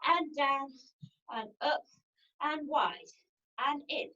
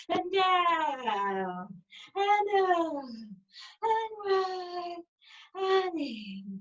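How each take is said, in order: First: Said in the usual way. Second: Long, stretched vowels on each cue; drawn-out cues. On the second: Real, not acted. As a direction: stretch every word along with the slow movement. Same cues stretched for slow circles.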